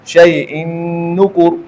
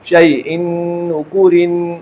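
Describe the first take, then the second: First: The last word ends without the '-in' sound. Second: The last word ends with an '-in' sound. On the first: The reader stops at this word. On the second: The reading continues without stopping.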